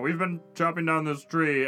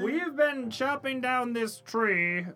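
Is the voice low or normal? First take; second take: low; normal. First: It is said in a lower voice. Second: It is said in a normal voice.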